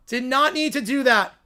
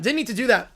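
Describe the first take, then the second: First: "not" spelt out and stressed; "Did not" hits "not" hard with a falling tune. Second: Said in the usual way. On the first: Shown as a demonstration.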